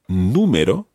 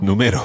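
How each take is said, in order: First: The stress is on the first syllable. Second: The stress is on the second syllable. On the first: The speaker calls it right. "There's an accent on the U" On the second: The speaker calls it wrong. "otherwise it would be ... which is wrong again"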